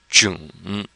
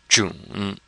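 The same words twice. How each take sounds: The two takes are said the same way.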